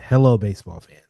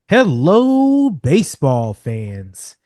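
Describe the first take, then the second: First: It is said in a more subdued tone. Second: It is said in a very cheerful tone.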